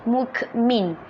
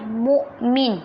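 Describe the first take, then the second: First: The middle consonant is a full k sound. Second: The middle consonant is a glottal stop. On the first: The speaker calls it wrong. "bukan mukmin" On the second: The speaker calls it right. "sebutan dia adalah mukmin"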